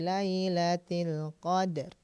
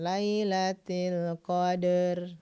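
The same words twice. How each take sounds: First: The d is released cleanly without an added vowel. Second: The d is followed by a strong e-like vowel. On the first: The speaker calls it right. "tapi lailatul qadar" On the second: The speaker calls it wrong. "qalqalah jangan seperti e banget ya. Jadi jangan lailatul qadar"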